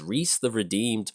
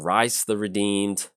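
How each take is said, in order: First: The name has an 'ee' vowel, like 'Reese'. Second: The name has an 'eye' vowel, like 'Rice'. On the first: "I think it's Reese" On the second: "or Rice the Redeemed"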